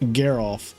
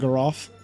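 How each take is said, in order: First: The first syllable has an 'ee' vowel sound. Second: The first syllable has an 'ah' vowel sound. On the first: Someone else says it this way. "I'm not getting where the E sound is coming from" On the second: The speaker says it this way. "I say Lumina Garoff"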